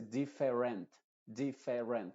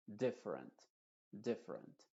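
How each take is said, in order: First: "different" como "di-fe-rent", con las E plenas; E muy clara. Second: "different" con la E interior reducida, en tono más suave; schwa. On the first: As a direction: di "different" marcando cada E. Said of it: "con una E muy clara". ("different" sin reducir vocales) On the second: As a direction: di "different" breve, sin E clara. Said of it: "sino con una schwa". ("different" con schwa) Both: Shown as a demonstration.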